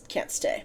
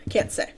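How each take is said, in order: First: Breathy, barely voiced trailing words; hushed and trailing off; faint whisper. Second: Whispering so only Avid hears; whispered. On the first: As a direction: let the words die to a whisper. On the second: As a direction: breathe the words out in a whisper. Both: A narrator's reading. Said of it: "Sausage voice was a whisper".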